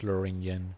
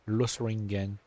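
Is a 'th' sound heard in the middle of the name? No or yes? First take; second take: no; yes. First: No th sound is heard in the middle. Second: A th-like sound is heard in the middle. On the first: The speaker calls it right. "it's pronounced Loringen" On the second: The speaker calls it wrong. "in my mind, I've always pronounced it Losring, Losringen"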